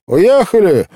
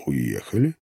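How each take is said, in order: First: High, loud blurt; abrupt high-pitched servant's cry. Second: Low, soft questioning echo; hushed disbelieving question; stunned repetition. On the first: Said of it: "брякнула она". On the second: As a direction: repeat it softly, low, rising into a question. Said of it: "повторил я". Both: A narrator's reading.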